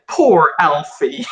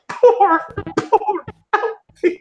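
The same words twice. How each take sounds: First: Said in the usual way. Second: High laughing pity, very slow. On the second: Real, not acted. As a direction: laugh through the words, high and drawn out. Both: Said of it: "I choose to point out".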